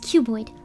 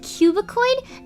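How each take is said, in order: First: The word has no extra middle syllable. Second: The word has an extra middle syllable. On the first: The speaker calls it right. "it's just cuboid" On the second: The speaker calls it wrong. "I said cubicoid"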